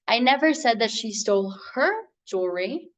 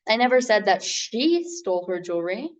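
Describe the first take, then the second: First: The word "her" carries the stress. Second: The word "she" carries the stress. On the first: "but she did steal the other lady's" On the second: Someone else was the thief. "meaning that someone else was the thief"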